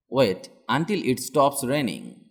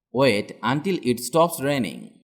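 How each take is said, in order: Both takes have the same delivery.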